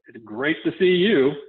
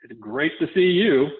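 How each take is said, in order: First: It sounds insincere and unconvincing. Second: The same.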